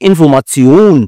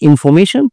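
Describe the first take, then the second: First: It is said with a German pronunciation. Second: It is said with an English pronunciation. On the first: "যেমন ভাষায় উচ্চারণ করো" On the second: "ইংলিশে উচ্চারণ হয়"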